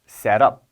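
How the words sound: It is said in an American accent. "미국식 발음 set up"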